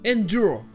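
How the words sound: A J sound follows the D. "en anglais britannique, il se prononce avec le son J"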